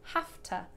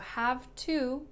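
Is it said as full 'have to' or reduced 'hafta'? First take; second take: reduced; full. First: The words are reduced and run together as 'hafta'. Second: The words are said fully as 'have to'. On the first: "if I start to speak faster, I would reduce this to Hafta" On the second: "So have to becomes Hafta"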